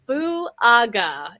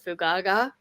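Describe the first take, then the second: First: The surname has no extra hard g sound. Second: The surname has an extra hard g sound. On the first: The speaker calls it right. "Fuaga is how you say that" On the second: The speaker calls it wrong. "That's not how you say that"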